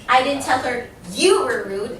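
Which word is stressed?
I. The word I carries the stress. Someone else said it. "I said somebody else did it"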